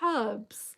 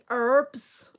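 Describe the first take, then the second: First: The h at the start is pronounced. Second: The h at the start is silent. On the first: This is how the speaker's own group says it. The speaker calls it right. "So we say herbs" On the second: This is how the listeners say it. The speaker calls it wrong. "I know you guys say herbs"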